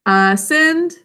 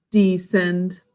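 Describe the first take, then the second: First: Ascend said higher and a bit louder; rising pitch for up. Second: Descend dropped much lower in the voice; falling pitch for down. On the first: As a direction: lift the voice up on ascend. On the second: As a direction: let the voice sink down on descend. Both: Shown as a demonstration. Teacher shows go up vs down.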